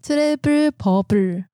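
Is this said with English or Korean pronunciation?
Korean. It is said with Korean pronunciation. "因为韩文的第一个b 要念成有点像p 的音"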